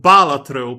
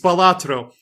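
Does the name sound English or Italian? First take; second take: Italian; English. First: The name is said like the Italian word baratro. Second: The name is said without Italian-style pronunciation. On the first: "as I have always pronounced it up until two minutes ago" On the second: "it's Balatro"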